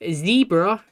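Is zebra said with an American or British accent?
American. It is said with an American accent.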